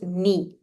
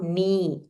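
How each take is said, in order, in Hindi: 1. स्वर छोटा है। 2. स्वर दीर्घ है। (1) "it is ni" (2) "It is not ni, not dirgha"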